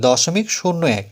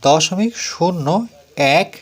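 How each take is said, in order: First: Said in the usual way. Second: Each word read out slowly with pauses; slow classroom read-out of দশমিক শূন্য এক; slow careful reading. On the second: Shown as a demonstration. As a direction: read it slowly, one word at a time, for pupils to copy. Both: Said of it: "এভাবে উচ্চারণ করব বা বলবো".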